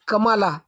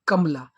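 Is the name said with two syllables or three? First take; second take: three; two. First: It has three syllables with a long middle vowel. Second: It has two quick syllables with no middle vowel. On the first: The speaker calls it wrong. "ये कमाला ऐसे बोला जाएगा" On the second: The speaker calls it right. "नहीं तो के ए एम एल ए"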